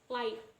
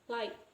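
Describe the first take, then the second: No difference in how they are said.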